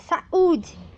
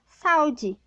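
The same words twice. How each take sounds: First: The stress is on the second syllable. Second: The stress is on the first syllable. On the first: The speaker calls it right. "é saúde, né? Então, eu preciso marcar essa sílaba tônica desse hiato" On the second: The speaker calls it wrong. "se eu não tiver o acento ali agudo no U, ele fica saúde"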